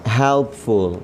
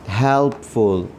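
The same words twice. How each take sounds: The two takes are said the same way.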